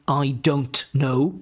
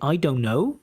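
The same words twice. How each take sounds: First: The t in don't is clearly pronounced. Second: The t in don't disappears completely. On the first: "You don't say I don't know" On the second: "that T disappears"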